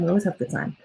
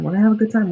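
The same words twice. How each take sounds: First: Softer, tucked-away repeat; quiet sing-song afterthought. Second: Said in the usual way. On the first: Real, not acted. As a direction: let it drop to a soft, private echo. Repeats line, then softer take.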